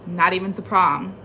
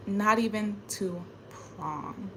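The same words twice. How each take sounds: First: Said in the usual way. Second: Slow, much softer "Not even to prom."; "Not even to prom." langsam und leise, verbittert; bitter quiet. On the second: Real, not acted. Slow soft bitter repeat.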